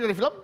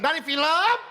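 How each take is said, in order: First: The words are said without strong emphasis. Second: The words are pressed with strong emphasis. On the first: It is given as an explanation. "Pas sudah ngasih penjelasan" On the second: It is asked as a question. "pada saat tanya gitu loh, dari film. Tekan tuh"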